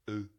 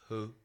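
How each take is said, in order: First: The name begins with a bare vowel. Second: The name begins with an H sound. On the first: "they don't pronounce the H. So maybe it's just called uh" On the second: "I'm gonna say Ho"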